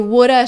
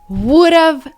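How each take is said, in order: First: It ends with a reduced uh sound. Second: It ends with a clear v sound. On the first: "when native speakers speak fast, they say woulda" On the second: "instead of would've"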